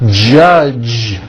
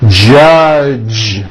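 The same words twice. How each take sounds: First: The final sound is a voiced j. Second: The same.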